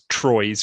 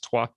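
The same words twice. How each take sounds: First: The name is said with an anglicized pronunciation. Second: The name is said with a French pronunciation. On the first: The speaker calls it wrong. "I was convinced it was Troyes for years after that" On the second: The speaker calls it right. "of course they don't pronounce it like that, and it's Troyes"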